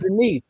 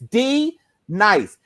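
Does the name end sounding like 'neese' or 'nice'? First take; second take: neese; nice. First: The name ends with a 'neese' sound. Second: The name ends with a 'nice' sound. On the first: The speaker calls it wrong. "instead of Denise" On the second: The speaker calls it right. "It's D nice. That that's what it is"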